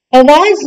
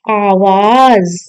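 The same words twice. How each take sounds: First: आवाज opening on a short a; wrong short a. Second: आवाज with long aa at the start; correct long aa. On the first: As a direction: say आवाज as "avaaz". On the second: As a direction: say आवाज slowly as "aavaaz". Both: Shown as a demonstration. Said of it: "अ नहीं".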